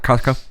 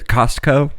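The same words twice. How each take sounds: First: The sounds are reduced and run together. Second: Every sound is said fully and carefully. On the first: "everyone's like" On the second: "pronounced it the right way"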